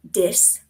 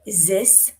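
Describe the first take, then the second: First: The word starts with a d sound. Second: The word starts with a z sound. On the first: "replace that T H with a D" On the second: "or a Z"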